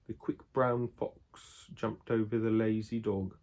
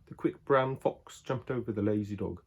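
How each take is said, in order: First: A slow, careful try at an English accent; a deliberate English accent test line; English accent attempt. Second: Said in the usual way. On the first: Shown as a demonstration. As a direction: read it out in your best English accent, slowly. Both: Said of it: "Let me see if I can do it good".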